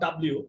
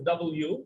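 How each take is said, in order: First: The letter name is run together as one word. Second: The letter name is said as two clear parts. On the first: The speaker calls it wrong. "It's not ডাব্লিউ" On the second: The speaker calls it right. "এটা হচ্ছে ডাবল ইউ, মানে ইউটাকে দুইবার লেখা হয়েছে"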